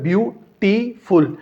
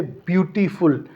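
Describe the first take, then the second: First: ब्यूटीफुल said slowly, split into its three syllables; syllables spelled out. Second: Said in the usual way. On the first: Shown as a demonstration. Teacher counting syllables for students, slow and split. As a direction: stretch out each syllable of ब्यूटीफुल. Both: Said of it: "इसके तीन syllable हैं".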